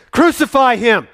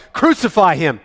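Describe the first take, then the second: First: Much higher and louder, screamed CRUCIFY; the mob's cry rising to a scream; screaming crowd. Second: Loud, high cry of the mob; crowd shout. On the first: Crowd pressing Pilate harder, screaming demand. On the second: Chief priests shouting at Pilate, loud demand. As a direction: roar it out for blood. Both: Acted. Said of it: "they gave a great shout".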